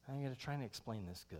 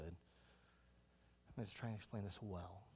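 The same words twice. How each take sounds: First: Said in the usual way. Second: Self-correcting aside. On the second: Shown as a demonstration.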